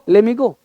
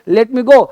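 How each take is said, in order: First: The t is dropped, so it sounds like le me. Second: The t at the end of let is pronounced.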